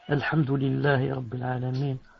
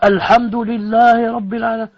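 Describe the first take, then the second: First: It is said softly, just audible to oneself. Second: It is said loudly, for people behind to hear.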